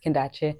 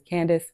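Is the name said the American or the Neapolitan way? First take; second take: Neapolitan; American. First: The name is said the local Neapolitan way. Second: The name is said the American way. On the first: "Here it's Kendache, which is actually closer to its original pronunciation" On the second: "in America, it's Candace"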